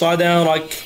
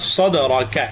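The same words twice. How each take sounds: First: The word ends on the consonant k, no vowel. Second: The word ends with a final short a vowel. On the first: The reader stops at this word. "যদি অফ করি এখানে তাহলে صدرك হবে" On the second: The reading continues without stopping. "কাফ জবর কা صدرك"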